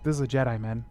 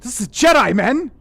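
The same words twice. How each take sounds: First: It is delivered flatly, with little energy. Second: It is delivered with more energy and force.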